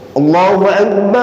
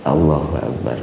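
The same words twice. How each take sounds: First: It is said loudly, with a strong voice. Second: It is said softly, like casual conversation. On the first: The speaker calls it right. "Harus kenceng" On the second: The speaker calls it wrong. "Jangan seorang muadzin itu seperti bicara sama temannya yang dekat"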